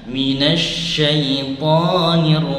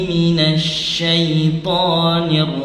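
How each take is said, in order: Both takes have the same delivery.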